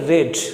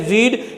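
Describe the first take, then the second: First: The vowel is a short 'e' sound. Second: The vowel is a long 'ee' sound. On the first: It is the past tense. "लेकिन यहां इसे कहेंगे रेड" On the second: It is the present tense. "यहां इसे हम कहेंगे रीड"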